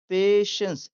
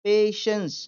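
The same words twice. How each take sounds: The two takes are said the same way.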